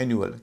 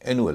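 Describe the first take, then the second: First: The u is said with a y sound, 'yoo'. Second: The u is said as plain 'oo'. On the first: The speaker calls it right. "इसका उच्चारण हो रहा है एनुअल" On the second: The speaker calls it wrong. "इसे कई लोग एनुअल कहते हैं"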